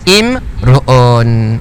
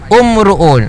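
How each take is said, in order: First: The word begins with an i vowel. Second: The word begins with a u vowel. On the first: The speaker calls it right. "Ia dia baca imruun" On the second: The speaker calls it wrong. "Kita baca umruun. Salah"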